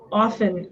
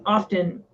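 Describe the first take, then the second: First: OFTEN said "off-en", t left out; no T at all in OFTEN; often with silent T. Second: OFTEN said "off-ten", t pronounced; often with sounded T. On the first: Shown as a demonstration. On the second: Retold or imitated. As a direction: hit a T in OFTEN. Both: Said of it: "Everybody always says often".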